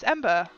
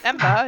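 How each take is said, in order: First: The name starts with an 'em' sound. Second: The name starts with an 'am' sound. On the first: The speaker calls it right. "it's Ember" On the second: The speaker calls it wrong. "it's not Ember"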